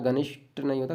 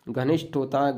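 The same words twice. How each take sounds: First: नहीं hit hard in the denial; stress on नहीं. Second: होता given firm weight in घनिष्ठ होता है; stress on होता. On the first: Teacher rejecting the wrong spelling. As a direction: punch नहीं to rule out the form. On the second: Teacher confirming the spelling घनिष्ठ. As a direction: lean on होता to confirm the form. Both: Shown as a demonstration.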